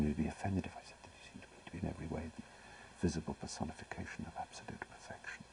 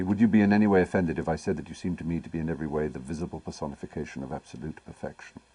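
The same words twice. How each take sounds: First: A fast, hushed whisper to himself; whispering Algernon's line as if replaying it inside his head. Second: Said in the usual way. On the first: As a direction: murmur the line under the breath, savouring it. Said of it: "I replayed it in my brain". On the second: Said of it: "and Algernon says to Cicely".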